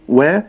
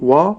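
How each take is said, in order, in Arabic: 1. صوت الواو خفيف ومرقَّق. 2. صوت الواو ثقيل ومفخَّم. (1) "نلاحظ ترقيق الواو وعدم تفخيمها، ولكن أقول وا" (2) "لا أقول وا"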